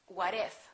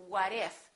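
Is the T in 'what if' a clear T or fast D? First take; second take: fast D; fast D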